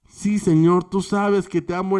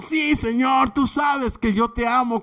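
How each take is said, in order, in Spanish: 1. Se dice en voz baja y con timidez. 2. Se dice en voz alta y con efusividad. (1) "ahora lo hace más bajito... con más timidez" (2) "con la misma eh, efusividad"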